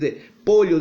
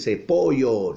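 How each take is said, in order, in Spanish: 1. La d de 'de' se pronuncia completa. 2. La d de 'de' se traga. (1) "En vez de decir" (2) "él se come las palabras"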